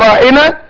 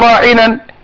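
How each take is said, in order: First: The word ends on a plain vowel. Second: The word ends with an added n sound. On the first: Please attend to us and care for us. The speaker calls it right. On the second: It mocks the listener as foolish and rash. The speaker calls it wrong.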